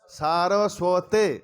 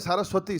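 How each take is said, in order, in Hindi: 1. शब्द 'ay' स्वर से समाप्त होता है। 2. शब्द 'ee' स्वर से समाप्त होता है। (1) "सारस्वती नहीं, सारस्वते" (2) "कई लोग कहते हैं सारस्वती"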